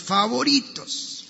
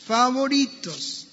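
First: Said in the usual way. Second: "favoritos" said higher and slower, relished; emphatic repeat. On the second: Shown as a demonstration. Pastor repeats "favoritos" to the church, relishing it slowly. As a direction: savour the word "favoritos". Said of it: "uno de mis textos favoritos".

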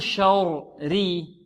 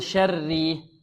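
First: Slow شوري with dark rounded "shor-ri"; heavy ra error. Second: شري with a thin "sharr-ri", both ra sounds light. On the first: Teacher posing the wrong option, heavy ra in شوري. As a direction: thicken the first ra in شوري. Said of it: "هل نقول". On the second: Teacher giving the correct option, light ra in شري. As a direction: keep شري light and open, holding the doubled ra. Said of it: "أو نقول". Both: Shown as a demonstration.

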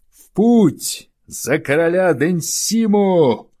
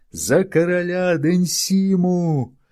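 First: Much higher, loud battle cry; rallying cry. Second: High, slow roaring crowd cry; crowd yelling. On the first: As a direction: rouse the crowd to march. (громкий призывный клич) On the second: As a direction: bellow it back as a crowd. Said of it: "завопила толпа". (рёв толпы) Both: Acted.

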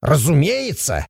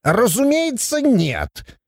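First: «Разумеется» as a drawn-out, bold exclamation; confident dwarf retort on «Разумеется»; defiant exclamation. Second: «Разумеется» high and softer, backing down; instantly deflated. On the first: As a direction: assert «Разумеется» without backing down. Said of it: "воскликнул Абаддон". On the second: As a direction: retreat meekly on «Разумеется, нет». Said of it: "и тут же сник". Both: A narrator's reading.

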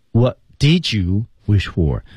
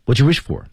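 First: "What did you wish for" said slowly with every word, "did" said fully; slow full form. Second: "What you wish for" with "did" melted into "you"; linked did-you. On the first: Teacher showing the unlinked form, slow and careful. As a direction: spell out "did" clearly, no linking. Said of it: "说得非常快". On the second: Teacher showing the native linked form. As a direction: glide "did you" into one quick "you". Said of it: "did被融入到了you当中". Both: Shown as a demonstration.

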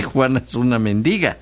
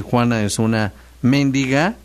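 First: "mendiga" stressed on the middle syllable, men-DI-ga. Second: "mendiga" stressed on the first syllable, MÉN-di-ga; stress on MEN. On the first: Host contrasting word meanings, "mendiga" stressed on DI. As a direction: lean on the DI of "mendiga", then fall. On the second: Host contrasting word meanings, "mendiga" stressed on MEN. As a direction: hit the MEN of "mendiga", ending on a rise. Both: Shown as a demonstration. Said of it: "no es lo mismo decir".

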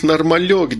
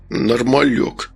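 First: Said in the usual way. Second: Put-on slow, slurred drunk echo; drunken grumble. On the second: A narrator's reading. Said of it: "пьяно пробурчал Эрик". (пьяное бурчание)

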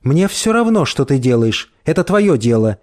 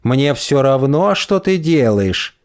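First: Said in the usual way. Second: Slow prissy mimicry; mincing mocking voice. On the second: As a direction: parrot her words slowly and mincingly. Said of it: "жеманным голосом передразнивает он".

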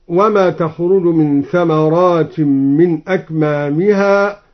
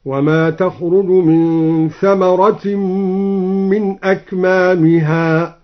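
First: Said in the usual way. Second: Slow recitation, ثمرة as singular thamaratin with short a; ثمرة read singular, drawn nasal into the following m. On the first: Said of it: "قرأ الدوري من ثمرة". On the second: Shown as a demonstration. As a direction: chant ثمرة slowly, no long aa before the t. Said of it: "بالإفراد إرادة جنس الثمرة هكذا".

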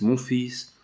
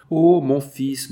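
First: Falling back to a quieter, moved voice; softer after the cry. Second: Slow, louder and higher, from a changed voice; overwhelmed cry of joy. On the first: Jeanne holding her son, softer and moved. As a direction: let the joy sink to a hush. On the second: Jeanne to her son Georges, a slow overwhelmed cry of joy. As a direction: let the joy burst out as she finds her son. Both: A narrator's reading. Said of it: "c'était trop de joie".

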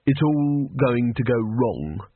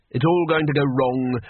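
First: Slow, flat and gloomy. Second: Said in the usual way. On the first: A narrator's reading. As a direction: say it with no hope at all. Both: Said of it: "said Rincewind flatly".

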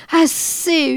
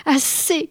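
First: « Assez » hurlé, aigu et fort; hurlement. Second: « Assez » lancé fort et haut; cri. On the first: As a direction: hurle « Assez » avec plus de force. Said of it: "hurla-t-il encore". (hurler « Assez » encore plus fort) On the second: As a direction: crie « Assez » pour la chasser. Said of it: "cria-t-il". (crier « Assez ») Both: A narrator's reading.

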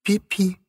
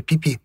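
First: Put-on high lisping little girl; toddler baby talk. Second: Put-on mother gently repeating the baby word; mother's voice. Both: A narrator's reading.

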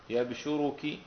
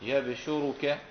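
First: يبشرك as yab-shu-ru-ki, ending in i; single sh and final kasra in يبشرك; light-sheen reading. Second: يبشرك as yab-shu-ru-ka, ending in a; single sh and final fatha in يبشرك; light-sheen reading. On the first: Teacher demonstrating the rule, يبشرك as yab-shu-ru-ki. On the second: Teacher demonstrating the rule, يبشرك as yab-shu-ru-ka. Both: Shown as a demonstration. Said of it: "وضم الشين مع التخفيف".

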